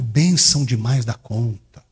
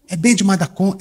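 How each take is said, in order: First: The word 'bênção' is said with both syllables. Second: The word 'bênção' is shortened to one syllable. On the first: This spells out what was meant. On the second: This is how a local from Minas says it.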